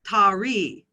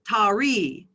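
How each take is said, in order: First: A vowel is inserted between t and r. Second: The same.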